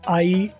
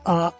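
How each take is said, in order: First: It is said as a full 'aai' glide. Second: It is said as a plain 'aa' without glide. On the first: The speaker calls it wrong. "आई आप ना रखें" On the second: The speaker calls it right. "आ सबसे ज़्यादा बोला जाता है"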